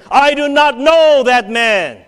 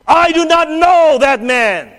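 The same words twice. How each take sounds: First: Loud, high, slow sworn denial; cursing and swearing. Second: Slow, loud, high shout of denial. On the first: Peter cursing at the bystanders, a loud slow shout. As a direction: swear it out furiously, word by word. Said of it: "he began to curse and swear". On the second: Peter denying the Lord right after boasting, loud and slow. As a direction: throw the denial out hard. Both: Acted.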